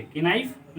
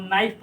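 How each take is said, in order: First: "कि नाइफ" run together as one word; wrong pronunciation. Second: "नाइफ" as one syllable, no K; silent K. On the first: Teacher showing what not to read, कि नाइफ with audible K. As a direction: say कि नाइफ as ki-naif, K sounded. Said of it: "नाइफ नहीं पढ़ेंगे". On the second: Teacher giving students the right reading, नाइफ with silent K. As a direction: say नाइफ starting straight on N. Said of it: "इसको हम नाइफ पढ़ेंगे". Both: Shown as a demonstration.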